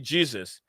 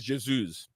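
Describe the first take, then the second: First: It is said with an English pronunciation. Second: It is said with a South American pronunciation. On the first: "English version will say Jesus" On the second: "When you go to the South American, they say Jesus"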